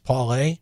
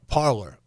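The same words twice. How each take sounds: First: The name is said with a French pronunciation. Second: The name is said with an American pronunciation. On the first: The speaker calls it right. "The French pronunciation is Parler" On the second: The speaker calls it wrong. "because we're dumb Americans, it got changed to Parler"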